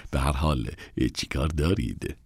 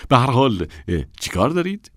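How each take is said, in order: First: Quiet fall on دارید; subdued question. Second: Quick, high, rising question; impatient high rise on دارید. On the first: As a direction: let it drop flat and quiet. Same question said again. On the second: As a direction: hurry them, pitch up at دارید. Assistant asks women their business. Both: Acted.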